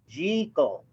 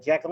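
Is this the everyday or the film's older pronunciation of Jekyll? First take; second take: film's older; everyday. First: Jekyll is said the way the film says it. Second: Jekyll is said in the usual everyday way. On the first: The speaker calls it right. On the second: The speaker calls it wrong.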